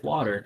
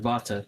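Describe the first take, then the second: First: Said in the usual way. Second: Water said vah-ter, V sound; Low German Water. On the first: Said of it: "And then obviously in English". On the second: Shown as a demonstration. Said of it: "the W's are pronounced with a V sound".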